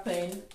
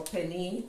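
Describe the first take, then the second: First: "pen" said as one syllable; alternative pronunciation. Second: "penny" said as two syllables; alternative pronunciation. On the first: Vlogger unsure of the pasta's name, one-syllable "pen". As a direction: say "pen" with no final vowel. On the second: Vlogger offering another pasta name, two-syllable "penny". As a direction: end "penny" on an ee sound. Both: Shown as a demonstration. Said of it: "however you pronounce it".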